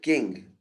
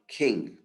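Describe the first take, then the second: First: The k has no puff of breath. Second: The k has a puff of breath. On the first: "They're going to say" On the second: "and not"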